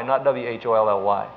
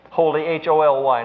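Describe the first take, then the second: First: W H O L L Y spelled lower, each letter apart. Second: Holy spelled letter by letter, H O L Y. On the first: Preacher contrasting the wrong spelling, lower. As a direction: spell the wrong word low and deliberate. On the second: Preacher spelling Holy for the congregation. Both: Shown as a demonstration. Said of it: "Holy, H O L Y, not W H O L L Y".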